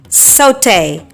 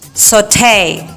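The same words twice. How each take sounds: First: It is said in a British English accent. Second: It is said in an American English accent.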